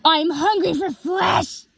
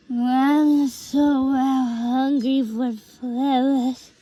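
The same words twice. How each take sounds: First: Slow, high-pitched cry, every word clear; clearer repeat. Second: Slow, indistinct drawn-out mumble; mumbling. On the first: Twilight repeats her hungry line, clearly and menacingly. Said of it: "but clearer". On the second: Twilight mumbling to herself, only partly heard, slow mumble. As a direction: slur the words into a barely understood mumble. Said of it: "She kept mumbling something". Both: A narrator's reading.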